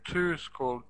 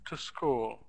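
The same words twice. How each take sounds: First: The word 'to' is full, like the number. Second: The word 'to' is short and unstressed. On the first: The speaker calls it wrong. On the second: The speaker calls it right.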